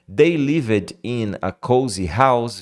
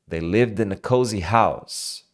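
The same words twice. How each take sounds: First: The words are said separately, one by one. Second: The words run together, with in a linked.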